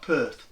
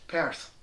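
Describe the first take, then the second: First: It is said with an English accent. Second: It is said with a Scottish accent. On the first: The speaker calls it wrong. "It's not Perth. You have an English accent" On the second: The speaker calls it right. "take off your English accent when you say Perth"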